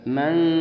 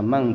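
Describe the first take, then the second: First: The nasal sits between n and ng. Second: The word ends in an ng sound. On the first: The speaker calls it right. "harus tengah-tengah antara huruf nun dan zal" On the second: The speaker calls it wrong. "dibaca mang juga salah"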